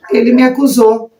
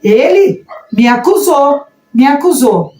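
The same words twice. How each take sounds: First: Said in the usual way. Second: ELE raised high, then "me acusou" falling; insistent, pointed stress on "ele" and "me acusou"; emphatic accusation. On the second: Shown as a demonstration. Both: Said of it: "Olha a diferença".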